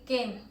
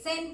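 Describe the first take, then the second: First: The name begins with a K sound. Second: The name begins with an S sound. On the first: The speaker calls it right. "se lee Ken" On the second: The speaker calls it wrong. "no se lee Sen"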